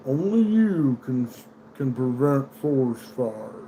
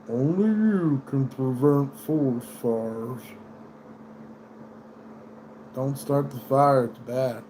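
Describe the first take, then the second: First: Slow, drawn-out Smokey the Bear slogan. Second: Slow, calm mascot voice; mild PSA mascot, slow; gentle Smokey slogan. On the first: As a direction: read it slow like the old PSA. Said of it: "Smokey the Bear says". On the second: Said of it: "But no, he's like". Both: Retold or imitated.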